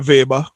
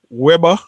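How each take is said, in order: First: The word begins with a V sound. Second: The word begins with a W sound.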